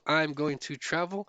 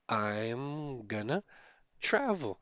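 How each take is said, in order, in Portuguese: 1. "Going to" é dito por extenso, com cada som claro. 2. "Going to" é reduzido e se funde em "gonna".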